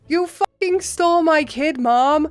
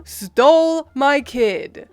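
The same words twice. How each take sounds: First: Higher, hard angry snap on stole; angry accusation. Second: Slow, louder, each word bitten off; seething repeat. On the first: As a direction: tear into mom over the stolen kid. Yelling at his mother. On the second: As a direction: drive it home word by word. Repeating accusation at mom. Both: Retold or imitated.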